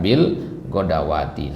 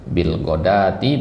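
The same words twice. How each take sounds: First: Bil godawati with a long "waa"; wrong reading GODAWATI. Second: Bil godati, long "daa"; correct reading GODATI. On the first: Teacher repeats the mistake, godawati with waw. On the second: Teacher repeats the rule, godati with long a. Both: Shown as a demonstration. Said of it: "bukan bil godawati".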